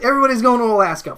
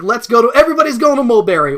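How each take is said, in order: First: Higher and louder, a quick chipper call; mock excited announcement. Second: Higher and louder, eager call to everyone; mock excited announcement. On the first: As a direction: rattle it off like a cheery plan. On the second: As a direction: cheerily announce a group trip. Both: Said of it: "where it's just like".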